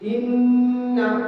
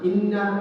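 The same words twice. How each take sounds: First: The double n is held with nasal resonance. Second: The double n is said short without nasal resonance. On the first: The speaker calls it right. "ইন্না এবং আন্না এই শব্দগুলোর মধ্যে গুন্না সিফত পাওয়া যায়" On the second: The speaker calls it wrong. "গুন্না আদায় না করে, ইন্না আন্না এভাবে বলে"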